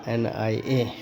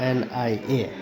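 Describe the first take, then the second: Both takes have the same delivery.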